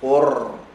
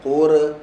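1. Bunyi r adalah getaran pendek tanpa vokal. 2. Bunyi r melantun dengan vokal setelahnya. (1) "yang keluar adalah getaran qur" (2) "bukan qura, qura adalah lantunan"

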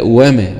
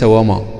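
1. صوت الميم مرقّق، خفيف. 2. صوت الميم مفخّم، ثقيل. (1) "وما وليس" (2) "ما تقولش وما وتفخم الميم"

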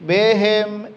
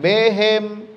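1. Vokal pertama terdengar seperti 'e'. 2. Vokal pertama terdengar seperti 'e'.

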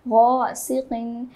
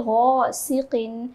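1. पहला अक्षर भारी और पुर है। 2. पहला अक्षर भारी और पुर है।

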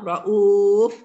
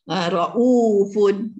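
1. Kata ini diakhiri tanpa bunyi 'un'. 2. Kata ini diakhiri dengan bunyi 'un' yang jelas. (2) "kalau kita wasal"

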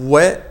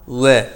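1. W sesi çok kalın yapılır. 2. Düz, yuvarlak bir w sesi, kalın değil.

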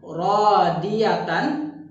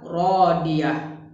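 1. Kata ini berakhir dengan bunyi 't' dan 'an'. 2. Kata ini berakhir dengan bunyi 'h' mati. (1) "jika huruf terakhirnya ta marbutoh" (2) "jika wakaf maka dibaca rodiah"

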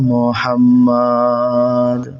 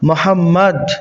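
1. শব্দের একটি স্বরবর্ণ লম্বা করে টানা হয়। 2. স্বরবর্ণ ছোট থাকে, দ্বিত্ব ব্যঞ্জন থাকায়। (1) "এই যে মুহাম্মদ টান দিয়ে দিল" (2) "আমরা পড়েছি মুহাম্মদ, তাসজিদওয়ালা হরফ"

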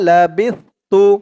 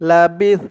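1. শব্দটি একটি অতিরিক্ত অক্ষর 'tu' যোগ হয়ে শেষ হয়। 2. শব্দটি ব্যঞ্জন 's'-এর উপর হঠাৎ শেষ হয়ে যায়। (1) "এখানে অক্ষ নেই তাই লাবিস তু হয়েছে" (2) "থামলে এখানে উচ্চারণটা হবে লাবিস"

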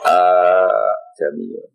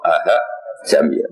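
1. Hanya satu bunyi hamzah yang dibaca. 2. Hamzah kedua dilunakkan menjadi bunyi mirip ha. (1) "A jamiyun normal" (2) "Mirip ha"

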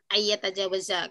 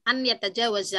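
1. Bunyi n menyatu dengan bunyi y setelahnya. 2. Bunyi n diucapkan terpisah sebelum y. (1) "boleh dibaca pakai ini ya, pakai hukum tajwid" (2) "lebih baik dibaca sesuai hurufnya saja"

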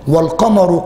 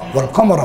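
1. تنتهي الكلمة بحركة قصيرة 'u'. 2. تنتهي الكلمة بحركة قصيرة 'a'. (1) "لكن من الذي يقرأ بالرفع؟" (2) "والقمر بالنصب"

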